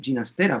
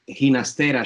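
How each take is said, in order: First: The first sound is a G sound. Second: The first sound is an H sound. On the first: This follows the family's Italian origin. "I still say Ginastera, ... his family was Italian" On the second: This follows the Spanish pronunciation. "Ginastera should be right. It, the G in Spanish is pronounced as an English H"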